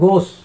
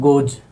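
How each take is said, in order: First: The word ends with a hissing s sound. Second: The word ends with a buzzing z sound. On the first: The speaker calls it wrong. "गोस बोलने में easy नहीं है" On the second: The speaker calls it right. "गोज बोलने में easy है"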